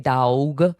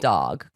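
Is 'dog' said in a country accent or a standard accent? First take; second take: country; standard. First: It is said in a drawling country accent. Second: It is said in a plain standard accent. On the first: The speaker sounds truly country. The speaker calls it right. "he was country through and through. He needed to say dog" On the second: The speaker does not sound country. The speaker calls it wrong. "instead of"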